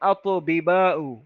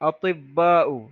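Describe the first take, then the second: First: The two b sounds are separated by a vowel. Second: The two b sounds merge into one long b. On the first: This is the original underlying form of the word. "মূল শব্দ ছিল এরকম" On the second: This is the word as it is actually used. "আতিব্বাউ মানে কি ডাক্তারেরা।"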